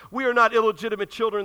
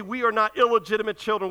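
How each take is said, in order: First: "not" hit hardest, a touch louder; indignant denial leaning on "not"; protesting, stress on not. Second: Said in the usual way. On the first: Retold or imitated. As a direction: push back on "not" like a mild protest. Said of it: "they protested". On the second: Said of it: "and they say".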